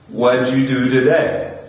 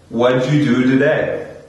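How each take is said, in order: First: What did is shrunk to one syllable. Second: The same.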